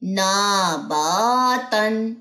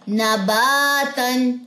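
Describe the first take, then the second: First: The first vowel, on na, is held long. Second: The second vowel, on ba, is held long. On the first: The speaker calls it wrong. "Students क्या गलती करते हैं, ... ना ना क्यों लंबी करनी है" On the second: The speaker calls it right. "अलिफ से पहले जबर, इट्स मीन कि ये लंबा होगा"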